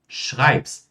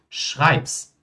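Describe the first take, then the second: No difference in how they are said.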